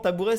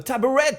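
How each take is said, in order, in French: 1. Il est prononcé avec un accent français ordinaire. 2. Il est prononcé avec un accent à consonance anglaise.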